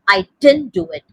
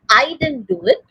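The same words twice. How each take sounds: First: The word I does not carry the stress. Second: The word I carries the main stress. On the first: "another way of saying" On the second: "So that is the stress on the I"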